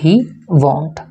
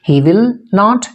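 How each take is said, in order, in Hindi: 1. Will not एक syllable में संक्षिप्त हो जाता है। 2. 'will not' शब्द पूरे रूप में बोले जाते हैं। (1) "इनफॉर्मल वे में" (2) "फॉर्मल"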